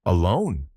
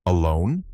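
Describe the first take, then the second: First: "Alone" falling to a final close; confirming ALONE. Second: "Alone" with rising pitch at the end; questioning ALONE. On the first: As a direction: state "Alone" as an answer, pitch falling at the end. Answering take of a repeated word. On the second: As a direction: ask "Alone" with an upward lift. Questioning take of a repeated word. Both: A narrator's reading.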